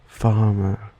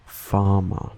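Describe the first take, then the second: First: Farmer with a British "er" ending; British accent. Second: Farmer ending in a pure "ah", Australian; Australian schwa ending. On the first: Contrasting Australian with British accent, "er" ending. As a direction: say farmer as British "fah-muh". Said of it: "In a common British accent". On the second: Listing Australian schwa examples, open "ah" ending. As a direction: say farmer as Australian "fah-mah". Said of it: "like in the Australian accent". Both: Shown as a demonstration.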